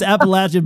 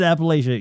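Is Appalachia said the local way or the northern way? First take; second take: local; northern. First: It is said the local Appalachian way. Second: It is said the northern way. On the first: This is how people from the region say it. The speaker calls it right. "It's Appalachia" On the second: This is how outsiders from the north say it. The speaker calls it wrong. "for some reason I said Appalachia"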